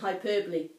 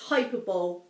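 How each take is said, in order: First: The word is said in its standard pronunciation. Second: The word is said as its spelling suggests. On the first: The speaker calls it right. "that's what the word was pronounced like" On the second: The speaker calls it wrong. "read this as hyperbole"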